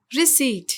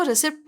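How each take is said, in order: First: रिसीट said ri-SEET, p silent; correct pronunciation. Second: रिसिप्ट with the p sounded before t; wrong pronunciation. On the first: Teacher gives learners the right word, clearly pronounced. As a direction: say रिसीट with long ee, no p. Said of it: "तो सही word है". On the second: Teacher shows what many people say, mispronounced. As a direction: say रिसिप्ट as ri-SIPT. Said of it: "जो कि गलत है". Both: Shown as a demonstration.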